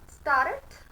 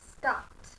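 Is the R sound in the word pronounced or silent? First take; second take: pronounced; silent. First: The R sound is pronounced after the vowel. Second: The R sound is silent after the vowel. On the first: The speaker calls it wrong. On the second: The speaker calls it right. "R is silent because R is after a vowel"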